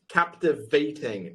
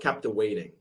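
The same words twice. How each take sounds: First: The middle consonant is a V sound. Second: The middle consonant is a W sound. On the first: The speaker calls it right. "So it's captivating" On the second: The speaker calls it wrong. "not captivating"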